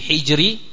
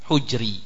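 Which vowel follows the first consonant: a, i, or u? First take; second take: i; u. First: The first vowel is i. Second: The first vowel is u. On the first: "Bisa dibaca dengan kasrahnya al-ha" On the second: "yaitu ad-dhammah"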